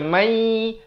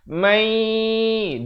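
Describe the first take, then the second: First: It is said without any nasal hum. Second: It is said with a nasal hum. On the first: The speaker calls it wrong. "mai dah masuk tapi dengung tak ada" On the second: The speaker calls it right. "Dia kena masuk beserta dengung"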